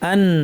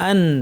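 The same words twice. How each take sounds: Both takes have the same delivery.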